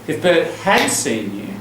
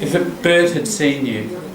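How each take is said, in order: First: The word 'had' is stressed with a full vowel. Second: The word 'had' is unstressed with a reduced vowel. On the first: "if I want to stress it like this" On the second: "most of the time we don't say it like that"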